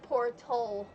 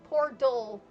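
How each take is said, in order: First: The middle consonant sounds like a clear t. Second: The middle consonant sounds like a soft d. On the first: This is the other common way to say it. "instead of Portel" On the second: This is how the speaker usually says it. "I say it like Pordell"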